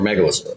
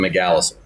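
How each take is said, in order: First: The word is said in an ordinary way. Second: The word is said in a jokey, odd way. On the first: It is the serious usual form. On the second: It is a running joke.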